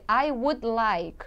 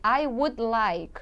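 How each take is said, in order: First: The word would is said in full. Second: The same.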